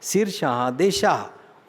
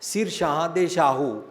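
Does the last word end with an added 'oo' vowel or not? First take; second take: no vowel; added vowel. First: The last word ends without a final 'oo' vowel. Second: The last word ends with an added 'oo' vowel. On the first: The speaker calls it right. "शुद्ध उच्चारण है" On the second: The speaker calls it wrong. "जे कोई पढ़े"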